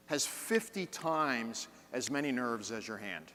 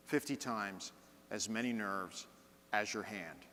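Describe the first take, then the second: First: Said in the usual way. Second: Softer, each chunk set apart by a pause; paused phrasing. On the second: Shown as a demonstration. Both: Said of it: "I just changed the speed and the intonation".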